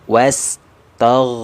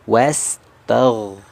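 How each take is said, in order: No difference in how they are said.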